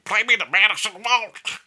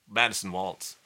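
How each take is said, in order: First: Strained dysphonic voice, pushed high and loud. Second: Said in the usual way. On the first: Retold or imitated. Fiddler imitating his idol's phone call, loud high dysphonic voice. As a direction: do a weird impression of damaged vocal cords. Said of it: "do a weird voice, but he had vocal dysphonia". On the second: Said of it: "I'm gonna ma-, do a weird voice".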